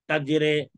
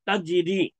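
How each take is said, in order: First: The final vowel is a mid 'ay' sound. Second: The final vowel is a long 'ee' sound. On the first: "तजरे हो गया तो मजहूल हो गया।" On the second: "तजरी हो गया तो मारूफ हो गया"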